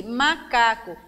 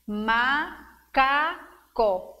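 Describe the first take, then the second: First: Said in the usual way. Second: "macaco" very slowly in three separate beats; syllable by syllable. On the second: Shown as a demonstration. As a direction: break "macaco" into ma, ca, co with clear pauses. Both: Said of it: "Três vezes".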